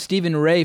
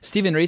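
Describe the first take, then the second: First: The surname rhymes with day. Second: The surname rhymes with see. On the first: The speaker calls it wrong. "I've been calling him Stephen Ray for decades" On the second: The speaker calls it right. "the correct pronunciation"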